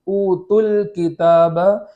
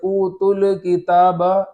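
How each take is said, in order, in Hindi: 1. l ध्वनि के बाद कोई स्वर नहीं आता है। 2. l ध्वनि के बाद a स्वर आता है। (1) "बल्कि ऊतुल किताब इस तरीके से पढ़ेंगे" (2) "उसके ऊपर ज़बर न हो जाए। जैसे ऊतुल किताब ऐसा नहीं पढ़ेंगे"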